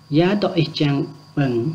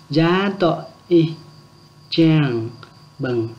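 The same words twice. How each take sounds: First: Said in the usual way. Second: Gia tọ y chẳng bừng split into slow, separate chunks; slow it right down for the class to repeat. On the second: Shown as a demonstration. Teacher repeating the phrase slowly for learners to copy. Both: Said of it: "Lại nhé".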